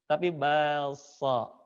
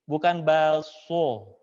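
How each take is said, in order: First: Slow "balso" with the mouth open; correct open a. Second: Slow "balso" with rounded lips; wrong rounded o. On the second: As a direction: say "balso" slowly with pouted lips. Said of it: "bukan so". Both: Shown as a demonstration.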